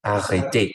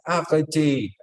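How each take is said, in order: First: Said in the usual way. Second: Mock cry, higher-pitched. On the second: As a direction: imitate a singer's cry, moderately raised. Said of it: "en un momento ella grita".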